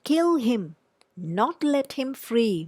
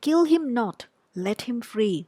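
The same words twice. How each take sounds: First: The pause comes after 'him'. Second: The pause comes after 'not'.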